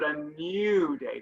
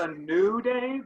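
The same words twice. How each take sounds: First: New is said as 'nyoo', with a Y sound. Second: New is said plainly as 'noo', without a Y. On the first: The speaker calls it right. "There's a Y sound in the new" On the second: The speaker calls it wrong. "it's not a new day"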